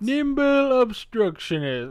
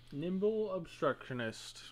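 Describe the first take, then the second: First: It is said in a failed attempt at British. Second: It is said in the speaker's normal accent.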